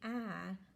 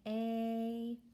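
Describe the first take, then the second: First: The vowel is the short a sound. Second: The vowel is the long a sound. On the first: The speaker calls it wrong. "like in mat, which is a closed syllable" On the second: The speaker calls it right. "the first vowel's long vowel sound"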